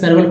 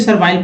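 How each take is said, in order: First: The last syllable has a short, reduced vowel. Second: The last syllable has an 'eye' vowel. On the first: The speaker calls it right. "सर्वल पढ़ेंगे" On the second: The speaker calls it wrong. "कुछ लोग सर्वाइल पढ़ देंगे लेकिन गलत है"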